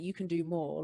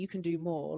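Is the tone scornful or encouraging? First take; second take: scornful; scornful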